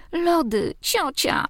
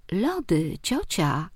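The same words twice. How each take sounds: First: Put-on high whiny kid demanding ice cream; a small boy pestering his aunt; child voice. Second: Amused repeat. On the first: Nephew demanding ice cream, high child's whine. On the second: Acted. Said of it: "powtórzył rozbawionym tonem".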